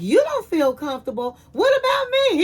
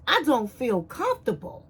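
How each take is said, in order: First: Indignant echo. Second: Said in the usual way. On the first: Retold or imitated. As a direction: throw his words back at him in disbelief. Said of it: "she was like". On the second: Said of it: "He was like".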